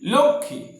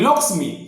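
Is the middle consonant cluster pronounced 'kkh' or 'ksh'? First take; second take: kkh; ksh. First: The middle cluster is pronounced as 'kkh'. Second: The middle cluster is pronounced as 'ksh'. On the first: This is the Bengali way of saying it. "আসলে আমরা বাংলায় বলি" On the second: This is the Hindi way of saying it. "হিন্দিতে উচ্চারণ করি"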